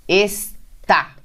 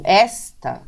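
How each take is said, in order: First: Está split in two, final TÁ stressed; stress on final syllable. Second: Esta said as ÉS-ta, open first vowel stressed; stress on first syllable. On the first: Teacher showing the accented oxytone, final-syllable stress. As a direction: hit the TÁ at the end of está. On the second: Teacher showing the unaccented paroxytone, first-syllable stress. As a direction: punch ÉS in esta, let ta fall away. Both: Shown as a demonstration. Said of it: "som e do acento".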